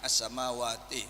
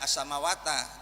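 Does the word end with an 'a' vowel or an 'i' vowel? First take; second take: i; a. First: The word ends with an 'i' vowel. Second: The word ends with an 'a' vowel. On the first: The speaker calls it right. "tapi as-samawati begitu ya" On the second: The speaker calls it wrong. "tidak ada"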